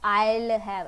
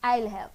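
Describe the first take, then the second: First: It is said slowly and drawn out. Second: It is said short and quick. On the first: The speaker calls it wrong. "ऐसे नहीं आएगा" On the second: The speaker calls it right. "आपको बहुत short में बोलना है"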